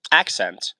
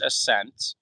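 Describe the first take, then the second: First: Said in the usual way. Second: "accent" slipped into "uh-SENT"; mispronounced accent. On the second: Real, not acted. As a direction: say "accent" like "assent", stress on the second syllable. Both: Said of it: "I don't know why I said accent".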